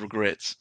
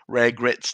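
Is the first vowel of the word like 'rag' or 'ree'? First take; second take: ree; rag. First: The first vowel sounds like 'ree'. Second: The first vowel sounds like 'rag'. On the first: It is the standard word. The speaker calls it right. "instead of regrets" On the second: It mimics a misspelled tattoo. The speaker calls it wrong. "for all those people who have regrets tattooed on them"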